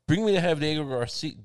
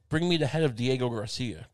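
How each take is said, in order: First: The words are slurred and run together. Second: Each word is pronounced distinctly and separately. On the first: The speaker calls it wrong. "I'm going to mumble this together" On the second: The speaker calls it right. "I'll say it clearly"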